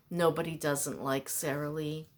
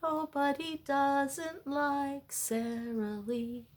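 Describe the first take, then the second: First: Said in the usual way. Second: Slow, higher ad-announcer delivery; commercial jingle voice. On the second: Retold or imitated. Quoting the Sara Lee commercial, slow ad-voice. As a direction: sell it like an old TV ad. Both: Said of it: "That was a commercial".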